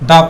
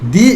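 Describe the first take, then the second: First: The word ends in a short 'uh' vowel. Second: The word ends in a long 'ee' vowel. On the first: The next word starts with a consonant. "তাহলে উচ্চারণটা হবে এরকম দ্য" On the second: The next word starts with a vowel. "তাহলে আমরা উচ্চারণ করবো কি দি"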